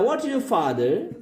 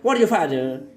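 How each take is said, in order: First: It is spoken at a steady, even pace. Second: It is spoken very fast and rushed. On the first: The speaker calls it right. "तो आपको वैसे ही बोलना है" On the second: The speaker calls it wrong. "कुछ लोग बहुत speed भी चले जाते हैं"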